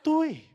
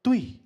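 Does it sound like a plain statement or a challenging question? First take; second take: question; statement. First: It sounds like a surprised, challenging question. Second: It sounds like a plain, calm statement.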